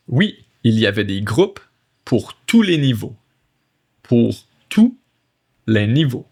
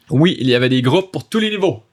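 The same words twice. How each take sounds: First: French read in separate phrases with pauses; chunked reading. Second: Fast, joined-up French sentence; fluent read-through. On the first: Teacher reading French to learners, phrase by phrase. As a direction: break the sentence up for learners. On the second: Teacher rereads the French line for learners, fast and fluent. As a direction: run it all together without a pause. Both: Shown as a demonstration.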